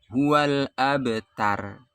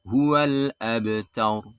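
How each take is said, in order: First: Abtar with a light, thin r; wrong thin r. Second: Abtar ending in a heavy, rounded r; correct thick r. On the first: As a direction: end abtar with a weak r. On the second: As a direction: stretch the ending of abtar to taur. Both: Shown as a demonstration.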